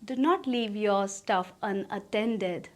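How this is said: It is said in an affectionate tone. "प्यार से बोलो"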